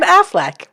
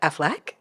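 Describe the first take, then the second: First: It is said in a plain American accent. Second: It is said in a posh, French-like accent. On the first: The speaker calls it right. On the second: The speaker calls it wrong.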